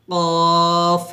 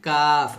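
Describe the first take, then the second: First: কফ held very long from the back of the tongue; slow heavy কফ; deep qaf. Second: কাফ said normally, tongue a bit forward; light everyday কাফ; plain kaf. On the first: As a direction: stretch কফ out, tongue root on the palate. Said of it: "জিহ্বার গোড়া উপরে তালুর সঙ্গে লাগিয়ে আমরা কফটা উচ্চারণ". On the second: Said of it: "নর্মালভাবে কাফ". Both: Shown as a demonstration.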